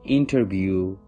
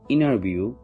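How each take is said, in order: First: The T after the N is heard. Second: The T after the N is dropped.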